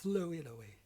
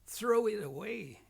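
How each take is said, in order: First: The R sound is weak or replaced. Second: The R is a strong growling sound. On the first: The speaker calls it wrong. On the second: The speaker calls it right. "like to make dogs growling sounds"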